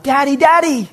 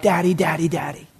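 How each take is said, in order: First: High-pitched imitation of a child's yell; yelling kid. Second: Said in the usual way. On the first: Preacher translates the kid's cry, high yelling voice. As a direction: call out for dad like a small child. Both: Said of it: "He's yelling out".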